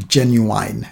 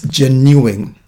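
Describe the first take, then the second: First: "Genuine" said with a long "-ine" like "wine" and a rising end; genuine, one version. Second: "genuine" slow, with a short "-in" ending and a falling end; genuine, the other version. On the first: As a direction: try out "Genuine" ending in "-ine". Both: Shown as a demonstration. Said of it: "American or British".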